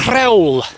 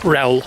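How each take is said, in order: First: The word begins with a breathy H sound. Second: The word begins directly with an R sound. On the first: The speaker calls it right. "You're supposed to pronounce the H" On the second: The speaker calls it wrong. "not rel"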